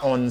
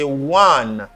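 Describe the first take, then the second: First: It starts with a plain vowel, no w. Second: It starts with a w sound before the vowel. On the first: The speaker calls it wrong. "C'est pas on" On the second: The speaker calls it right. "c'est one"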